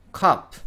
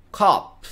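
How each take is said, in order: First: "カップ" as English cup, short uh; one-syllable "カップ" ending on a bare p; English cup vowel. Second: "カップ" as English cop, long open ah; English cop vowel. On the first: Teacher demonstrates English vowels, cup with short uh. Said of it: "これがカップのあの音です". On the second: Teacher contrasts with cup, open-vowel cop. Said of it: "で、おまわりさんですね". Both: Shown as a demonstration.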